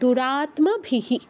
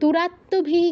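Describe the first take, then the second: First: The m after the t is clearly heard. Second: The m after the t is dropped. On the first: The speaker calls it right. "সংস্কৃতে কিন্তু দুটোকে উচ্চারণ করতে হবে" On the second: The speaker calls it wrong. "দুরাত্মভিহি কেউ বলবো না"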